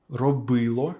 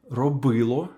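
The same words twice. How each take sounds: The two takes are said the same way.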